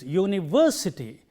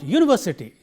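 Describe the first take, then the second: First: The stress is on the third syllable. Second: The stress falls off the third syllable. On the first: The speaker calls it right. "but it is university. This v has to be highlighted" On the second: The speaker calls it wrong. "It is not university"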